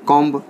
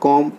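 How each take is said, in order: First: The final b is pronounced. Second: The final b is not pronounced. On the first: The speaker calls it wrong. "बिल्कुल wrong है" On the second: The speaker calls it right. "बी silent है"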